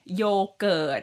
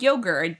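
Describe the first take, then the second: First: It is said with a Thai accent. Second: It is said with an English accent.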